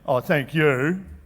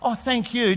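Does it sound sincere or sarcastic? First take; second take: sarcastic; sincere. First: It sounds sarcastic and ungrateful. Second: It sounds sincerely grateful.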